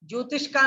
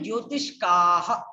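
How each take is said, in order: First: The word ends on a plain vowel without breath. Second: The word ends with a breathy h sound. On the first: The speaker calls it wrong. "ज्योतिष का नहीं" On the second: The speaker calls it right. "आपको पूरा विसर्ग तक पर ध्यान देना चाहिए"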